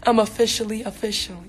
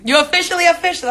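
First: Said in the usual way. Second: Higher, louder and fast hype; excited. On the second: Real, not acted. Congratulating a new app member, excited, higher and louder. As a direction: cheer the viewer on quickly.

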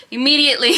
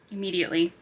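First: Immediately said higher and louder, with a falling end; loud emphatic. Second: Quiet. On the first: Vlogger insisting to viewers she'll start the book now, loud and excited. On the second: Vlogger telling viewers she'll start the book, said quietly. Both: Real, not acted.

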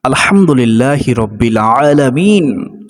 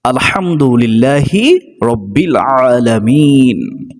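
First: Drawn-out, devout recital of the Arabic phrase; unhurried Quranic-style recitation; slow Arabic recitation. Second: Even more drawn out, lingering on আলহামদুলিল্লাহি; prayerful, stretched-out recitation; slow Arabic recitation. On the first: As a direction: recite it slowly as in prayer. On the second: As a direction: stretch each Arabic word reverently. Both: Shown as a demonstration. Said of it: "এটা বলে আল্লাহর প্রশংসা করা যাবে যে".

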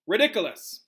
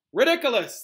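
First: Firm, raised demonstration of a spell; teacher modelling. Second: Chanted, loud, high repeat after teacher; chanted, call it out like an eager class; class chanting together. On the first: Acted. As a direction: say it clearly for others to repeat. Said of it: "After me, please". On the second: A narrator's reading. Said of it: "the class said together".

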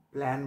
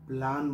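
First: প্ল্যান with the "a" of "cat"; right pronunciation. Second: প্ল্যান with open "aa", as "plaan"; wrong pronunciation. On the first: Teacher telling what must be said, English "ae". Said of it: "বলতে হবে". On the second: Teacher telling what must not be said, "plaan". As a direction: say প্ল্যান rhyming with "khan". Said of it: "বলা যাবে না". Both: Shown as a demonstration.

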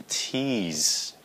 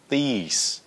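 First: Slow TEASE with aspirated T; T sound. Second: THESE with unaspirated th, no puff; th sound. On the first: Teacher contrasting the second word, breathy T in TEASE. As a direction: puff air on the T of TEASE. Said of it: "Cái chữ thứ nhì là". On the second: Teacher contrasting a minimal pair, clean th in THESE. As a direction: keep air back at the start of THESE. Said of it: "Cái chữ đầu tiên là". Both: Shown as a demonstration.

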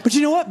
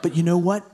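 First: High, punchy earnest pivot on what. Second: A hint of a smug edgelord lean on know; lightly voiced edgelord. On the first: Acted. Earnest comic turning to the crowd, high and punchy. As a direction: lean in like the crowd already agrees. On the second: Edgelord comic baiting the crowd, lightly smug. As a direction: smirk through it, mildly smug. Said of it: "which I will now demonstrate".

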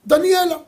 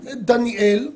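First: דניאלה with the final ה sounded, higher and louder; added final a. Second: Said in the usual way. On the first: Shown as a demonstration. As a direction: stress the added ending of דניאלה. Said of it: "מוסיפים לה את האות ה'". (דניאלה עם ה' מודגשת בסוף) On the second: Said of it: "למשל".

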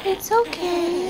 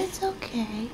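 First: Soothing. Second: Soft soothing. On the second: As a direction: let it fall to a hush. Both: Real, not acted. Soothing fussing newborn.

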